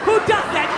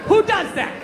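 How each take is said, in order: No difference in how they are said.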